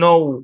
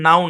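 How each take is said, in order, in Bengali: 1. স্বরধ্বনিটির উচ্চারণ 'go' শব্দের 'oh'-এর মতো। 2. স্বরধ্বনিটির উচ্চারণ 'cow' শব্দের 'ow'-এর মতো। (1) "এটা এর উচ্চারণ হচ্ছে নৌ" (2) "এখানে ভাই এর উচ্চারণ নাও না"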